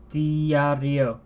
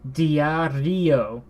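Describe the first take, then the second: First: The stress falls on the i. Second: The stress falls on the i.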